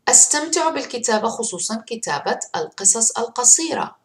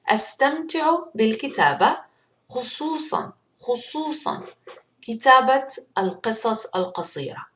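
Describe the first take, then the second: First: The sentence is read fast. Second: The sentence is read slowly.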